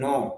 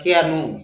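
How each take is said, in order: First: The word begins with an n sound. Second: The word begins with a k sound. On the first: The speaker calls it right. "অথচ আমরা বলতেছি নো" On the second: The speaker calls it wrong. "যদি উচ্চারণে নিয়ে আসে"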